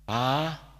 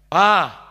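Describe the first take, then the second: First: The call is soft and gentle. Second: The call is moderately firm.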